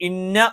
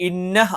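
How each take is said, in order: The two takes are said the same way.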